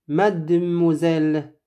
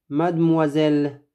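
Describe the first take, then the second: The two takes are said the same way.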